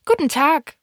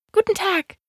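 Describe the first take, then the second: First: Higher-pitched greeting from the fox; lightly voiced fox saying hello; fox's greeting. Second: Much higher, polite little prince; polite greeting. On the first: Fox greets the little prince, lightly voiced. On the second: Little prince answers the fox's greeting, politely. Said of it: "antwortete höflich". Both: A narrator's reading.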